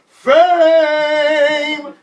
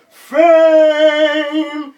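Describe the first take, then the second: First: Long, high, very loud shout; crowd yelling. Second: Long, high, very loud yell. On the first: Crowd and band shouting the song's hook, loud yell. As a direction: bellow it like the whole crowd. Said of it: "the band and the crowd was yelling". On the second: Rapper trapped by the mic stand, long loud yell. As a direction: hold the shout out over the crowd. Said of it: "I kept on yelling". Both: Retold or imitated.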